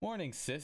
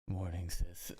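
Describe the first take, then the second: First: It is said in her own voice. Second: It is said in a put-on Shoto voice.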